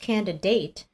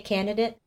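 First: Every sound in the word is carefully pronounced. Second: The word is said casually, with sounds reduced. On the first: The speaker calls it right. "when you actually look at the word, it is candidate" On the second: The speaker calls it wrong. "I think that I say candidate"

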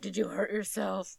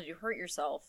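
First: It is asked in a creepy, menacing way. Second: It is asked in a casual, caring way.

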